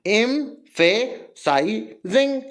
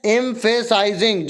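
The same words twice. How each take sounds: First: एम्फेसाइजिंग very slowly, each syllable on its own; syllable division. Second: Said in the usual way. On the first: Shown as a demonstration. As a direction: clear gaps between all the syllables of एम्फेसाइजिंग. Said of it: "तोड़ना मतलब syllable division". (एम्फेसाइजिंग, एक-एक syllable अलग करके) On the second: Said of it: "तोड़ तोड़ के पढ़ो ना".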